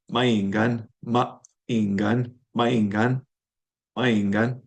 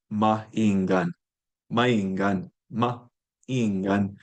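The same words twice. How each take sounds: First: "maingan" with a tiny pause between a and i; momentary pause. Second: "maingan" with a catch between the a and i; glottal stop. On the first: Teacher slowing the glottal stop in wolf. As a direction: split the vowels with the briefest catch. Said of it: "ever so momentary pause". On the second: Teacher demonstrating the glottal stop in wolf. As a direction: break the vowels with a glottal stop. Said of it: "interrupted by this glottal stop". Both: Shown as a demonstration.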